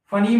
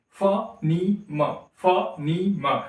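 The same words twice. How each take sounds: First: "फनीम" run together as fa-neem; in one go. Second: "फनीम" very slowly as fa, nee, ma; broken into parts. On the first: Teacher showing what he is not doing, "फनीम" all in one go. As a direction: say "फनीम" at once, without breaks. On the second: Teacher contrasting it with one go, "फनीम" split fa-nee-ma. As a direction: pause between the three beats of "फनीम". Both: Shown as a demonstration. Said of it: "फनीम नहीं बोल रहा है एक ही बार में".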